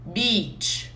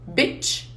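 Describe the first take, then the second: First: "beach" with a drawn-out ee; long ee vowel. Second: "bitch" with a quick short i; short i vowel. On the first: Teacher drilling the long ee of "beach" for students. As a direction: stretch the ee in "beach". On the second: Teacher drilling the short i of "bitch" for students. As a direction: keep the i in "bitch" brief. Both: Shown as a demonstration. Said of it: "Vocês conseguem ouvir quando eu falo".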